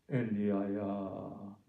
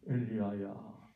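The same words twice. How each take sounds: First: Tender gentle call. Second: Gentle voice. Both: Shown as a demonstration. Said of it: "부드러운 음성으로".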